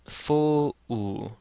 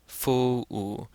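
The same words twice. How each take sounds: First: The vowels are split into two syllables. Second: The same.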